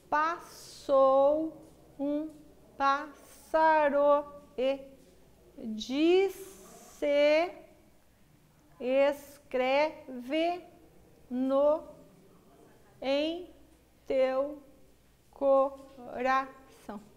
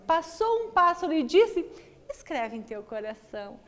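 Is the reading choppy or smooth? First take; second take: choppy; smooth. First: It is read slowly and heavily, word by word. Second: It is read smoothly with a flowing rhythm. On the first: The meaning is hard to follow. The speaker calls it wrong. "naquela leitura pausada e pesada que eu fiz" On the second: The meaning is easy to follow. The speaker calls it right. "Isso é ritmo"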